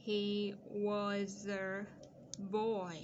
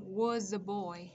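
First: Put-on "he was a", pause, then "boy", all drawn out; stretched-out reading with a break before "boy"; slow dictation. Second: Put-on "was a boy" slow but connected, z running into a; unhurried liaison demo of "was a boy"; linked sounds. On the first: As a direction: dictate very slowly, holding each word. Dictating the rest of the sentence. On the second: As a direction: link "was" to "a" with no gap. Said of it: "nối âm". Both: Shown as a demonstration.

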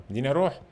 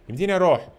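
First: Said in the usual way. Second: أروح called out louder and higher on the repeat; excited repeat. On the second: Real, not acted. Gamer to viewers, asking again, louder and eager.

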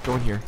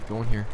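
No difference in how they are said.

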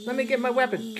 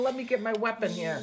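First: Louder urgent repeat. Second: Said in the usual way. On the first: Pretend.

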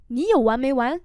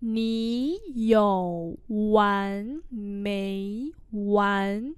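First: Said in the usual way. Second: Very slow, rising tones drawn out; slow teacher's repeat; slow model pronunciation. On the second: Shown as a demonstration. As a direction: stretch every syllable. Teacher repeats phrase slowly.

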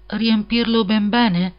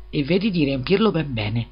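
First: Slow, high, wistful echo of the demand; a bit melancholy. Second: Said in the usual way. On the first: A narrator's reading. Hans echoes the miller's demand, slow and melancholy. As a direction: repeat it slowly, sad that he must give it all. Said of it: "in tono un po' malinconico".

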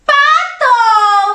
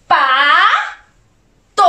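First: "Pato" as one stretched word, higher; syllables joined. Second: "Pato" split, Pa then to; syllable by syllable. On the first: Teacher revealing the duck word to children, syllables joined. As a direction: blend "Pato" together as a triumphant reveal. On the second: Teacher asking children what it says, syllable by syllable. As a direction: sound out "Pato" with a pause between Pa and to. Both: Shown as a demonstration. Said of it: "Junto, ¿qué dice?".

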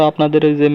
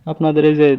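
Both takes have the same delivery.

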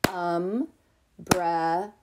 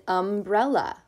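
First: Umbrella very slowly, UM, BREL, LA with gaps; split into syllables. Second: Said in the usual way. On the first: Shown as a demonstration. Teacher leading preschoolers, Umbrella broken into three slow syllables. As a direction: clap out Umbrella in three drawn-out beats. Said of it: "clap the syllables we hear in the word umbrella". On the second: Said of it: "Let's clap the syllables we hear".

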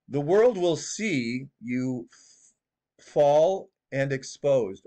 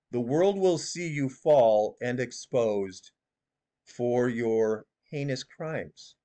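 First: Mock prophet drawl. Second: Slowly spelled-out doom, lightly voiced; slow prophecy imitation. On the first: Mocking the prophetess to viewers, slow stretched doom voice. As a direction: drag every word out like a doom prophet. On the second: Shown as a demonstration. Showing viewers how she says it, slow and solemn. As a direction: read it out like a solemn oracle, only a hint. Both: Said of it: "She says it like this".

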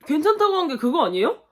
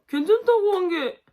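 First: 괜찮다고를 강조하고 끝을 올리는 되묻기; 괜찮다고 찍고 의문으로 올려; questioning rise. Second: 괜찮다고를 높이 올려 강조하고 끝을 내려; stress on 괜찮다고. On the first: (괜찮다고 강조 후 상승조 질문) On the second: (괜찮다고에 강세, 하강조) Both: Shown as a demonstration.

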